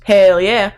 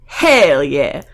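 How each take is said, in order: First: Lightly put-on Texan cheer; casual bad Texan accent; Texas accent. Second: HELL stretched out with a Southern twang; drawn-out, emphatic HELL yeah; emphatic Texan. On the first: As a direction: say it in a mild fake Southern accent. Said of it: "I have a terrible accent". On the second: Acted. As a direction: lean hard and long on HELL. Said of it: "And I mean, hell yeah".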